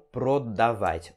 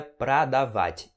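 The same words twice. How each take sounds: First: "продавать" with a full, literal O; O sounded as O. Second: "продавать" with its first O said as an A; O sounded as A. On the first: Teacher shows students the mistake, "продавать" with a full O sound. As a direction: say "продавать" as pro-da-vat, the mistake. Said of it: "e não продавать". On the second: Teacher shows students the correct verb, "продавать" with an A sound. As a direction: say "продавать" as pra-da-vat. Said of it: "Esse O tem som de A". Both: Shown as a demonstration.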